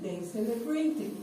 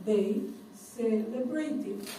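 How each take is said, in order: First: Said in the usual way. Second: "They... celebrated", muy despacio y separado; demostración muy lenta. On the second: Shown as a demonstration. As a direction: alarga "celebrated" como modelo para alumnos. ("They celebrated" pronunciado lentamente, palabra por palabra) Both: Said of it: "¿Se fijan?".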